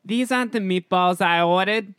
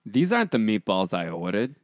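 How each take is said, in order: First: Loud, high put-on voice with a New York accent; high-pitched New York. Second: Put-on light New York accent at normal pitch. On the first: Actor following director's note for really high pitch, high New York voice. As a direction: push it up high and project. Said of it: "high pitch, really high pitch". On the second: Auditioning actor trying out the line, mild New York accent. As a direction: read it with a touch of New York. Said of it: "I don't need any New York accent".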